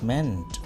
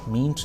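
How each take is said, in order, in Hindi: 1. स्वर छोटी 'e' ध्वनि है। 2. स्वर लंबी 'ee' ध्वनि है। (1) "मीन मेंट मेंट" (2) "मीन्ट नहीं पढ़ेंगे"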